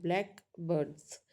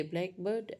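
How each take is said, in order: First: "blackbirds" split into two words, black birds; phrase stress. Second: "blackbird" run together as one word; compound stress. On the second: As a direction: stress the first part of "blackbird". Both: Shown as a demonstration. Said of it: "stress mark is changed when we say".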